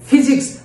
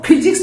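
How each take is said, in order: First: It begins with an f made with lip and teeth. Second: It begins with an aspirated p made with both lips. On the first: The speaker calls it right. "दांत और होठ से के बीच से निकलती है फ" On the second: The speaker calls it wrong. "उसको फिजिक्स नहीं बोलते हैं"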